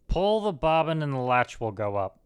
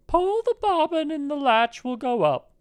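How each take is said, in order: First: Lightly disguised wolf, far below a falsetto; a hint of a wolf playing granny; wolf disguising his voice. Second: Very high falsetto granny voice; old grandmother. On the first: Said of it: "disguising his voice as much as he could". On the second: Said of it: "said the old grandmother". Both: A narrator's reading.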